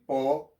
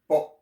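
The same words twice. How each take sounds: First: The vowel trails off with a soft breath. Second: The vowel is cut off sharply at the end. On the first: The speaker calls it wrong. "instead of saying Po" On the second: The speaker calls it right. "you have to cut the the, the word"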